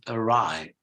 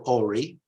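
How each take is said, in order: First: The word starts with a weak 'uh' sound. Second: The word starts with a full 'or' sound. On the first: The speaker calls it right. "it begins with a schwa" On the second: The speaker calls it wrong. "you might think it's or ori. No, it's not or"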